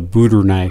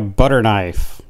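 First: It is said in a Southern accent. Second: It is said in a standard accent.

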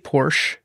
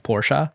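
First: The name is said in a plain English accent. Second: The name is said in a German accent.

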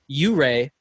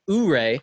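First: The name begins with a 'you' sound. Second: The name begins with an 'oo' sound. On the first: The speaker calls it right. "My username is pronounced Hip Hip U-Ray" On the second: The speaker calls it wrong. "not Ooray"

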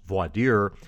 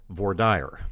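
First: It is said with the common national pronunciation. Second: It is said with the Texas pronunciation. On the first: "more commonly pronounced voir dire in the rest of the country" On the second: "That's the Texas pronunciation"

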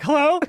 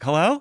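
First: It is said at a very high pitch. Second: It is said at a normal pitch.

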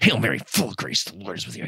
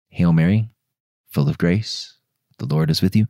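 First: The prayer is said fast and agitated. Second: The prayer is said slowly and calmly. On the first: The speaker calls it wrong. "Don't just go, ... not like that" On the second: The speaker calls it right. "the act of saying the prayer calmly"

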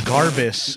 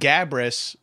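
First: The r sound comes right after the first a. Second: The r sound comes right after the b. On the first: The speaker calls it wrong. "people say it wrong all the time" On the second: The speaker calls it right. "that's completely correct"

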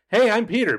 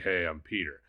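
First: The voice is light and cheerful. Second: The voice is deeper and more monotone. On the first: "Just instead of being like" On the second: "be like, ... That's all you need"

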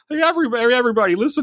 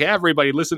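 First: It is said in an impersonated, put-on voice. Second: It is said in the speaker's ordinary voice.

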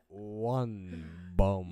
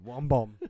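First: It is said very slowly and hesitantly. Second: It is said at normal speed, confidently.

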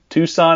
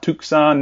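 First: The c is silent, no k sound. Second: The c is pronounced as a k sound. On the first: The speaker calls it right. "The C is silent" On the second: The speaker calls it wrong. "not Tucson"

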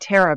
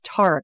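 First: The name is said with an American accent. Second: The name is said with a British accent.

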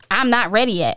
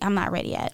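First: The phrase is said in an irritated, snappy tone. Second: The phrase is said in a relaxed, easy tone. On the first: The sender is irritated. "You can take that as a attitude" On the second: The sender is simply informing, not upset. "Or them just being calm"

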